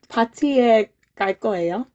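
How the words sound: It is said as a question, rising at the end.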